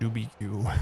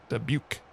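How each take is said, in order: First: The ending rhymes with barbecue. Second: The ending rhymes with puke. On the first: "Barbecue, Doobie Q" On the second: "like puke"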